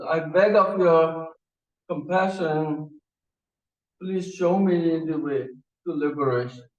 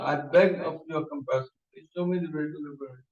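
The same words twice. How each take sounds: First: Each word of "I beg of your compassion" drawn out slowly, formal and earnest; slow solemn plea. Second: Quick repeated plea. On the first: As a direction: plead slowly like a devoted disciple. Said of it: "he says". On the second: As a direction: rush through the plea a second time. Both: Retold or imitated.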